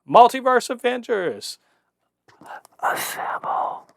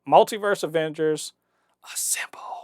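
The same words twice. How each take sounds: First: It is said in an imitated character voice. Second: It is said in the speaker's normal voice.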